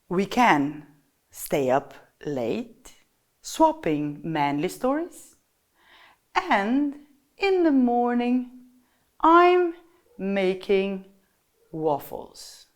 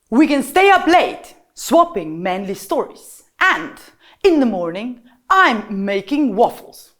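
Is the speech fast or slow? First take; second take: slow; fast. First: The words are spoken at a slow pace. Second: The words are spoken at a fast pace. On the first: "First one is to slow down" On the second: "fast, loud, sharp instructions"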